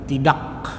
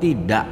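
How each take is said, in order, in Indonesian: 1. Huruf k di akhir terucap jelas dan penuh. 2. Huruf k di akhir terpotong, hampir tidak terucap. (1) "bukan tidak gitu ya" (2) "dibacanya kok tidak"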